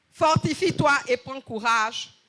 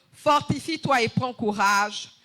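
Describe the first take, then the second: No difference in how they are said.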